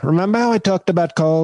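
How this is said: It is said in a put-on impression voice.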